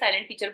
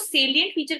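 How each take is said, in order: First: The first word sounds like 'silent', two syllables. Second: The first word has three syllables, 'say-lee-ent'. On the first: The speaker calls it wrong. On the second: The speaker calls it right.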